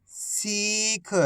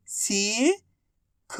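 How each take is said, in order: First: सीख joined as one soft word with long ee; blended word. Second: सीख split as सी, long pause, ख; syllable by syllable. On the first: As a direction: blend सी and ख into सीख without a gap. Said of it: "आपस में मिला के पढ़ दो". (सीख को मिलाकर बोलें) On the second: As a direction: sound out सीख slowly, सी rising, then ख alone. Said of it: "एक अक्षर की पहचान करो, उनका उच्चारण करो". (सीख को अक्षर-अक्षर अलग बोलें) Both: Shown as a demonstration.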